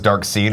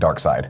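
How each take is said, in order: First: The second syllable rhymes with 'need'. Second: The second syllable rhymes with 'ride'. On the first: The speaker calls it wrong. "where that says Dark Seed" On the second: The speaker calls it right. "It's actually Dark Side"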